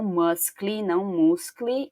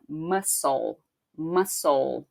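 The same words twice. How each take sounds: First: "muscle" said "muskle", k sound added; the mistaken "muscle", k pronounced; wrong: muscle with k. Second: "muscle" said "mussel", slow, no c sound; right: muscle without c. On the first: Teacher showing the wrong "muscle" students often say. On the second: Teacher showing the correct "muscle" with a silent c. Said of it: "a pronúncia dessa palavra é assim". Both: Shown as a demonstration.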